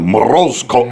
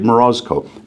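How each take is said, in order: First: It is said with a Russian-style pronunciation. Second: It is said with an English-speaker's pronunciation. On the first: The speaker calls it right. "if I meet a Russian, they're like, you know, Morozko or whatever they say, like the right way to say it" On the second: The speaker calls it wrong. "I think I say it Morozko"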